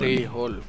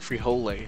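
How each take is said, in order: First: The word is said with a Spanish pronunciation. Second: The word is said with an anglicized American pronunciation. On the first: "how do you actually say it"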